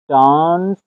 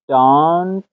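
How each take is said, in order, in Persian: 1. واکه صدای بلند و باز 'ah' است. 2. واکه صدای بلند و باز 'ah' است.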